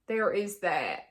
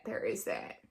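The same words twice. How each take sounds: First: Said in the usual way. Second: Low, quiet echo. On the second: Real, not acted.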